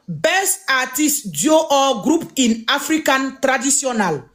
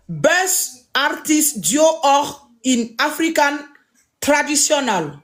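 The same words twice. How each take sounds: First: Said in the usual way. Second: Slow careful repeat. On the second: Shown as a demonstration. Repeating the category name for viewers, slow and careful. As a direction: read "Best Artist Duo or in African Traditional" slowly, word by word. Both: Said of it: "Je répète encore".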